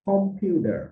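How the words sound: American accent, with a d-like t and r. "American উচ্চারণে কি হবে"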